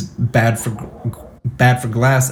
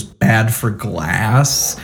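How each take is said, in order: First: Retold thick Chinese accent. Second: Very slow, mocking echo as a question. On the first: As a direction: quote him with a light Chinese accent. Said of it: "he's got a thick Chinese accent". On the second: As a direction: drag it back at him, mocking, very slow. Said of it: "kinda mocking him goes".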